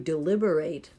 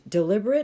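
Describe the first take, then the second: First: It is given its verb pronunciation. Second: It is given its adjective pronunciation. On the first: Someone thinks something over carefully. "But as a verb" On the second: Something is done on purpose. "as an adjective, if I pronounce it that way"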